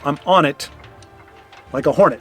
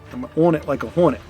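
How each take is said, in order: First: 'On it' is pronounced normally, not rhyming. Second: 'On it' is distorted to rhyme with 'hornet'. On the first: "if you say I'm on it like a hornet, that doesn't rhyme" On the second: "you got to say on it"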